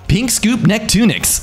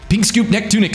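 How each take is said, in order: First: The phrase is said at an ordinary speed. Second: The phrase is rattled off very quickly.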